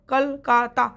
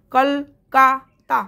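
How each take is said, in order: First: "Kolkata" in three distinct syllables with short gaps; quicker syllable breakdown. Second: "Kolkata" very slow and louder, in three separated syllables; slow syllable breakdown. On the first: Teacher repeating the split word for students, "Kolkata" in shorter separate beats. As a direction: say "Kolkata" syllable by syllable, moving along. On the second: Teacher splitting a word into syllables for class, "Kolkata" said very slowly in pieces. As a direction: break "Kolkata" apart with long gaps between syllables. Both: Shown as a demonstration. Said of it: "ভালো করে উচ্চারণ করবো".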